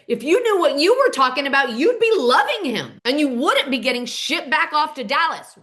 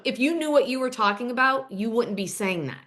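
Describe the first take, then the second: First: High, loud retold outburst; losing it. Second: Said in the usual way. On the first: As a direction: lash out as if losing your temper. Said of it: "Cole loses it and says". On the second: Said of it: "Calla says back to him".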